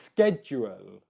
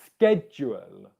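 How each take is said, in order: First: The word begins with a k sound. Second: The word begins with a k sound.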